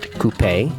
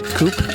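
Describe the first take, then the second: First: The word ends with a sounded final vowel. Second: The word ends without a final vowel sound. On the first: The speaker calls it wrong. "not coupé" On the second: The speaker calls it right. "you don't say the E on the end"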